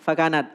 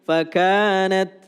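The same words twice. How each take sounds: First: The vowel after the k is short. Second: The vowel after the k is long. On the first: The speaker calls it wrong. "K-nya tadi [name] kependekan" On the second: The speaker calls it right.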